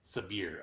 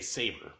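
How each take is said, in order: First: The name is said with a different second syllable. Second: The name is said like the word saber. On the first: The speaker calls it right. "but it's Sabir uh, according to the main dude" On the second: The speaker calls it wrong. "my head wants to say Saber"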